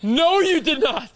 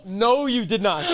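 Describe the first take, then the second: First: High, loud and slow, floored by the story; no way, drawn out in shock; shocked disbelief. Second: Said in the usual way. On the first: Real, not acted. Friend reacts to the mall lie with loud disbelief.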